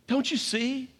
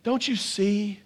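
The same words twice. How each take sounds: First: Soft plea, pitched up. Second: Soft plea. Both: Shown as a demonstration.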